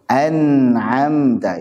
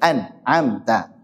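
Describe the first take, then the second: First: The word flows on without a break. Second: The word breaks off after the n sound. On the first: The speaker calls it right. "Itu maksud daripada idhar" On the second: The speaker calls it wrong. "Jadi bukan an, amta. Nah, itu hilang tawassutnya"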